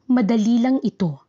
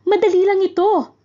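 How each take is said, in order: First: It is said as a plain statement. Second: It is said as an excited exclamation. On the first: The speaker is simply stating that it is easy. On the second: The speaker is exclaiming joyfully that it is easy.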